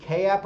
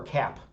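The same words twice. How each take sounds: First: "K app" as letter K, then app; pronounced K-app. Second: "cap" as one syllable; pronounced cap. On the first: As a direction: say "K app" in two parts, kay-app. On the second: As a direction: say "cap" like the hat, run together. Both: Shown as a demonstration. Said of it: "do you all pronounce it".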